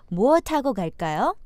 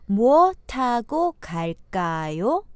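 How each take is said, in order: First: The phrase is spoken at a natural pace. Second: The phrase is spoken slowly and deliberately. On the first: "Now normal speed" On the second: "Slow speed first"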